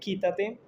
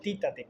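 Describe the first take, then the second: First: The word begins with a k sound. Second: The word begins with a t sound. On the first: The speaker calls it right. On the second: The speaker calls it wrong.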